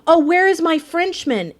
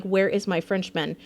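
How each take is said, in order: First: Higher, louder mock cry of a worried sailor; imitating the sailor. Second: Said in the usual way. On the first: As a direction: call out for the lost mate, hamming it up. Echoing the game sailor's line. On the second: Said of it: "he's like".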